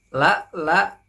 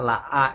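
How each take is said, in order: First: The second syllable begins with an L sound. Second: The second syllable begins with a bare vowel. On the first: The speaker calls it right. "ini huruf lam, lanjutnya huruf lam ya" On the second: The speaker calls it wrong. "Jangan sampai ini dibaca alif ya, la a itu salah ya"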